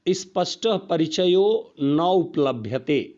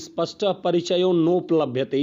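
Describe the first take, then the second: First: The last two words are said as separate words. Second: The last two words merge into one word. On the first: The speaker calls it right. "आपको इस तरह पढ़ना है अलग अलग करके" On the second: The speaker calls it wrong. "इस तरह पढ़ना ही नहीं है"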